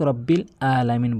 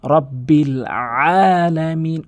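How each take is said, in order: First: "রব্বিল আলামিন" quick, "আলামিন" on a plain a; wrong plain ain. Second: "রব্বিল আলামিন" slow, with a long squeezed ain in "আলামিন"; pressed ain. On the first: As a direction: say "রব্বিল আলামিন" without squeezing the throat or stretching. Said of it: "এটি বলবেন না কখনোই". (আইন ছাড়া সাধারণভাবে "রব্বিল আলামিন") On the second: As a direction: recite "রব্বিল আলামিন" drawn out, leaning on the throaty ain. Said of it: "আইনটি ভর দিয়ে". (আইনে ভর দিয়ে টেনে "রব্বিল আলামিন") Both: Shown as a demonstration.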